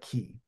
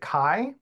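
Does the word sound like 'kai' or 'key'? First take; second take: key; kai. First: The vowel sounds like 'ee'. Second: The vowel sounds like 'eye'. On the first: This is how many other people pronounce it. "a lot of people call it Key" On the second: This is the speaker's own pronunciation. "I pronounce it Kai"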